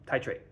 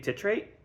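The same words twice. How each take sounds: First: The first syllable sounds like 'tie'. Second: The first syllable sounds like 'tit'. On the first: The speaker calls it right. "going with that" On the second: The speaker calls it wrong. "but that has tit in it"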